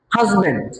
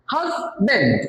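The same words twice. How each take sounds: First: Said in the usual way. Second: হাজব্যান্ড as HAZ, pause, BAND; broken into syllables. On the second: Shown as a demonstration. Teacher breaks up a word for class, হাজব্যান্ড in two syllables. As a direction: split হাজব্যান্ড into two separate beats. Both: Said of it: "দুইবার উচ্চারণ করতে হয়".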